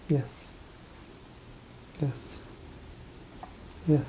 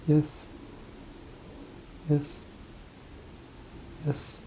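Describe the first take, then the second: No difference in how they are said.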